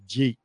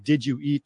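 First: "Jeet" as a contracted "did you eat"; slurred into one syllable. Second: Said in the usual way. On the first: Shown as a demonstration. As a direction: run it together into one short "Jeet". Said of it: "turns into "Jeet". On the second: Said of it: "where you get the terms like".

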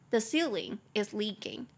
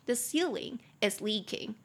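First: Slower, clearer repeat. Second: Said in the usual way. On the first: Shown as a demonstration. Teacher repeats the sentence slowly for students to copy. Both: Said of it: "你就可以说".

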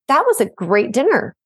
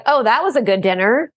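First: Sincere "That was a great dinner", lightly voiced; grateful. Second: Mock sassy remark, rising on was; lightly sarcastic "Oh, that was a good dinner". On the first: Demonstrating a grateful comment to the parents. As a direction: say it with simple thanks. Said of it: "those are two totally separate things". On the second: Demonstrating a child's sassy comment to the parents. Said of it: "when you're giving me a sassy comment". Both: Shown as a demonstration.

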